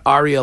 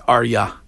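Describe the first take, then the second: First: It sounds like the opera word aria. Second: It does not sound like the opera word. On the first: The speaker calls it wrong. "It's not Arya like an opera" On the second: The speaker calls it right. "It's Arya"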